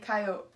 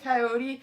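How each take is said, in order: First: It is pronounced the Montana way. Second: It is pronounced the non-Montana way. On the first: This is how a true Montanan says it. "If I was a true Montanan, I'd say coyote" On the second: This is how the other person says it. "you say coyote"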